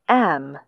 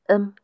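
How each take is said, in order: First: The word is said fully with a clear vowel. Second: The word is reduced to a short consonant. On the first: "strong and weak forms" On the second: "strong and weak forms"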